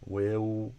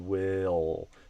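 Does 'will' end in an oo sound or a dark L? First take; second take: oo sound; dark L. First: It ends in a rounded oo sound. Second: It ends in a dark L sound. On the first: The speaker calls it wrong. "oo or o" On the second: The speaker calls it right. "we're aiming for ol"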